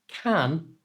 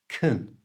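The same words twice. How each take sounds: First: The vowel is a full, clear 'a' sound. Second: The vowel is reduced to a weak 'uh' sound. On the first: The speaker calls it wrong. "So it's not can" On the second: The speaker calls it right. "the a in can is swapped for the schwa"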